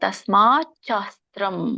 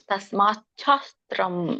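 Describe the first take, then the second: First: The two words are said separately, ending in t. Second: The two words are joined with a ch sound. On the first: "ತಸ್ಮಾತ್ ಶಾಸ್ತ್ರಂ ಅಂತ ಬಿಡಿಸಿ" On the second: "ಪದ ಕೂಡಿ ಹೇಳ್ಬೇಕು ಅಲ್ಲಿ"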